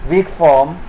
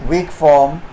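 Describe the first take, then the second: Both takes have the same delivery.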